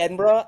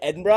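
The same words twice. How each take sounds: First: It is said with an American accent. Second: It is said with a Scottish accent. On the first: "Every time I say Edinburgh" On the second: "every Scottish person's like, "You mean Edinburgh?""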